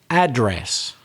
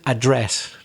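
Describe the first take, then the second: First: The stress is on the first syllable. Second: The stress is on the second syllable. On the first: "if it's a noun, stress the first syllable. And that's exactly what they do in American English" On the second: "in British English, capriciously, we break the rule"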